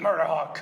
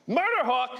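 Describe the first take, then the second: First: It is said flatly, without conviction. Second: It is said forcefully, with conviction.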